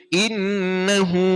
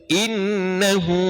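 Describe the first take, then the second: Both takes have the same delivery.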